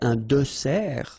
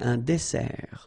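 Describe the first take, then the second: First: The middle consonant is a soft Z sound. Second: The middle consonant is a sharp S sound. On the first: The speaker calls it wrong. "So you don't say" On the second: The speaker calls it right. "But you say"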